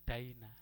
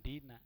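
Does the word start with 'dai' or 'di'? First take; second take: dai; di. First: The vowel after d is the diphthong 'ai'. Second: The vowel after d is a plain 'i'. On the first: The speaker calls it right. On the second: The speaker calls it wrong. "Jangan dina"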